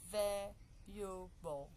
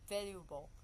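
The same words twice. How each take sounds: First: "valuable" broken slowly into three syllables. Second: Said in the usual way. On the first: Shown as a demonstration. Teacher showing "valuable" has just three syllables, syllable by syllable. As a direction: say "valuable" slowly, a gap after each syllable. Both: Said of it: "Just three".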